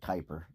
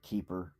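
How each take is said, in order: First: It does not sound like the English word 'keeper'. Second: It sounds exactly like the English word 'keeper'. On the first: "but I would say Kuiper" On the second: "you could probably pronounce that Keeper"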